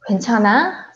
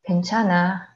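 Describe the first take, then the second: First: The voice rises at the end, as a question. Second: The voice falls at the end, as a statement.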